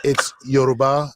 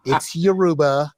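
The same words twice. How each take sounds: First: "Yoruba" as YO-roo-bah, full first syllable; low, slow "Yoruba", YO clearly sounded; correct Yoruba. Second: "Yoruba" as yuh-ROO-buh, stress on the middle; mispronounced Yoruba. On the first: Student correcting the professor, correctly pronounced. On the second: Professor insisting to her student, mispronounced. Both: Retold or imitated. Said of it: "You can mispronounce it once".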